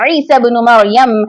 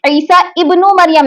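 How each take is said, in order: First: Isa runs straight into bnu without a stop. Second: A glottal stop is sounded before ibnu. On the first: The speaker calls it right. "उससे पहले वाले हर सीन को बा से मिला देगा" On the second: The speaker calls it wrong. "ईसा इब्नु मरियम नहीं पढ़ेंगे"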